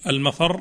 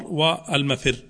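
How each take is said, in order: First: Al-mafarr, set apart slowly with an a; mafarr with fatha. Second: Al-mafirr, set apart slowly with an i; mafirr with kasra. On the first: Sheikh contrasting the two readings for students, al-mafarr with a. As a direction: stress the a vowel in al-mafarr. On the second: Sheikh contrasting the two readings for students, al-mafirr with i. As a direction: stress the i vowel in al-mafirr. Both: Shown as a demonstration. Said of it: "الكسر والفتح".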